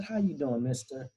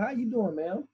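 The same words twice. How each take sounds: First: Lightly voiced grandmother, near usual pitch; grandmother's greeting. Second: Manager's greeting. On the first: Grandmother greeting the restaurant manager back, lightly imitated. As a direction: answer softly as the grandmother. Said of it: "She said". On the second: Retold or imitated. Manager greeting grandmother at the table, high-pitched imitation. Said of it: "the manager comes over and says".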